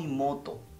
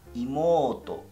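First: The vowel after the m is short. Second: The vowel after the m is long. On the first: The speaker calls it wrong. "no imoto" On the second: The speaker calls it right. "Siempre recuerdas esas estiraciones de sílaba"

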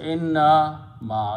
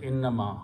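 First: It is said with a break between parts. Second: It is said quickly without a break.

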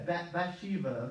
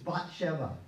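First: The name is pronounced the English way. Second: The name is pronounced the original way. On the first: "that's how you say it in English" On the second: "but it's Bathsheba"

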